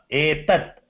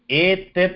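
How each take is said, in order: First: The final t has no vowel after it. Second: The final t is followed by a full vowel. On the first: The speaker calls it right. "that ta is again halantam. So you should not pronounce it fully" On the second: The speaker calls it wrong. "Etat na"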